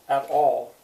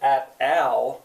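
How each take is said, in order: First: The vowel sounds like the aw in saw. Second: The vowel sounds like the short a in Al. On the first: The speaker calls it right. "But what we say is all, aw, all, at all" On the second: The speaker calls it wrong. "We don't say at al"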